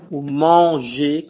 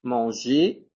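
First: Manger said slowly, the ending ER sounding like É; careful demo of the ER ending; model word. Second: Manger with its final ER said as a clear É; teacher demo of the ER ending; model word. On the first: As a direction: stretch out manger for the class. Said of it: "quand vous dites manger". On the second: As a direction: repeat manger to stress the ending. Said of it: "la terminaison E R". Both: Shown as a demonstration.

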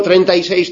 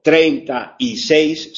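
First: TREINTA Y SEIS run together without gaps; quick, unbroken "treinta y seis"; one joined word. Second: TREINTA, Y, SEIS spaced out slowly; slow "treinta y seis" with gaps between words; separate words. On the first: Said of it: "todo junto". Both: Shown as a demonstration.

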